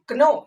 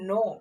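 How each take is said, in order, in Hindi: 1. शब्द की शुरुआत "k" की आवाज़ से होती है। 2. शब्द की शुरुआत "n" की आवाज़ से होती है। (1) "नहीं" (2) "इसको हम लोग पढ़ते हैं नो"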